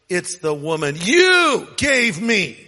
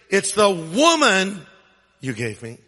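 First: The stress is on the word you. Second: The stress is on the word woman.

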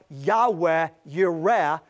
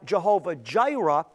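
First: Both words begin with a Y sound. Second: Both words begin with a J sound. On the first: The speaker calls it right. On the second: The speaker calls it wrong.

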